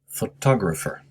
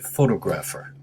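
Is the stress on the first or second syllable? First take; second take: second; first. First: The stress is on the second syllable. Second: The stress is on the first syllable. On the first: The speaker calls it right. "the stress, I should say, is on the second syllable" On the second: The speaker calls it wrong. "many students say photographer, which is very a natural mistake to make"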